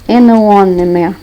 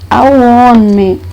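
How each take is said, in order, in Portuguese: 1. O artigo é 'an', com som de n. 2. O artigo é o som simples de 'a'. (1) "você não vai falar an one man" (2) "Você diz a one man"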